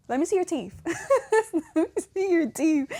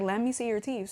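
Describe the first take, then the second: First: High-pitched mock mom, breaking into laughs; laughing mom imitation. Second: Said in the usual way. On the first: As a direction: imitate mom's demand through giggles. Retelling mom's demand, laughing.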